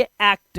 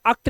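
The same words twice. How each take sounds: First: "एक्ट" with an open ae, ऐक्ट; "एक्ट" on a clear ऐ sound; correct act. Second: "अक्ट" quickly with a short uh; "अक्ट" with अ in place of ऐ; wrong act. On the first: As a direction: model "एक्ट" with the vowel of cat. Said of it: "इसे पढ़ेंगे एक्ट". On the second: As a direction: misread act as "अक्ट", starting on schwa. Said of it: "अक्ट नहीं पढ़ेंगे". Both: Shown as a demonstration.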